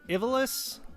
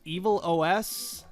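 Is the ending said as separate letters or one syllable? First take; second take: one syllable; separate letters. First: The ending blends into one syllable, -lus. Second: The ending is spelled out as letters O, S.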